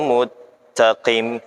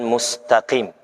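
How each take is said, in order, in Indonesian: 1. t yang digandakan menggantikan bunyi s. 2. Bunyi s dibaca sebelum t. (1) "Mustaqim dibaca al-muttaqim" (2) "Bukan mustaqim"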